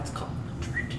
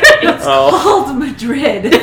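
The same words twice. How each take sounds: First: It is said at a normal volume. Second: It is said more loudly.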